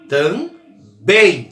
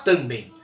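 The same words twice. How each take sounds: First: The stress is on the last syllable. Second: The stress is on the first syllable. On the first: The speaker calls it right. "É o bem" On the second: The speaker calls it wrong. "Você não fala"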